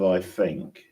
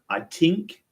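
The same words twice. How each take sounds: First: It is said in the speaker's ordinary accent. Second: It is said in an imitated Irish accent. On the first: "Instead of I think" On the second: "they go, I think"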